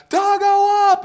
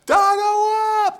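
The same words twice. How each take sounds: First: Loud, high yell of "Dargo up!"; yelled call. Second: Slow, drawn-out high scream of "Dargo up!"; echoing scream. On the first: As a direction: yell "Dargo up!" like an assistant director on set. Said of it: "the second would yell out". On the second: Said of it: "this echo screams across the studio". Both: Retold or imitated.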